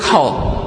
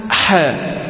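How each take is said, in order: First: حاء thick and backed, "haw"; wrong heavy ha. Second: حاء thin and fronted, "hæ"; light ha. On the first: Retold or imitated. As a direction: imitate the common Egyptian heavy حاء. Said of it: "خاصة هنا في الشعب المصري". (حاء مفخمة خطأً) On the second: Shown as a demonstration. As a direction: demonstrate حاء without heaviness. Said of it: "والصواب أنها". (حاء مرققة)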